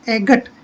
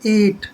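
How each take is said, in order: First: A g sound is heard before the t. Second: No g sound is heard before the t. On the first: The speaker calls it wrong. "एगट नहीं पढ़ेंगे इसको हम" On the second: The speaker calls it right. "जी एच silent रहेगा"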